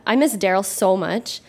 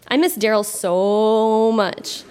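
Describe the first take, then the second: First: Said in the usual way. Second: A hammed-up sigh of longing, stretched; mock lovesick, very slow. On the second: Reading her teen diary to the crowd, mock lovesick and very slow. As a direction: drag out every word like a swooning teen.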